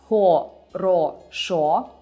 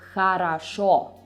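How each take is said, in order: First: Each letter is sounded exactly as written. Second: It is sounded differently from its written letters. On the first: "you spell хорошо" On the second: "you read it as хорошо"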